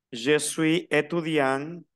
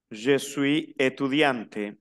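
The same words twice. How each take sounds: First: Étudiant ending on the nasal vowel, no T; silent final T. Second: Étudiante with the T clearly released; sounded T ending. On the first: French teacher models the masculine form, slow, étudiant without its T. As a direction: slowly, leave the T of étudiant unsounded. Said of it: "El masculino no se pronuncia la T". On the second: French teacher models the feminine form, slow, étudiante with audible T. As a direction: slowly, pronounce the T before the final E of étudiante. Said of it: "la que termina es la E, no la T". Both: Shown as a demonstration.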